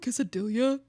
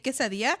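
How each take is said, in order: First: It is pronounced the English way. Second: It is pronounced the Spanish way. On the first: This is how someone correcting a Spanish speaker says it. The speaker calls it wrong. "are you talking about quesadilla?" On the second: This is how Spanish speakers say it. The speaker calls it right. "We say quesadilla"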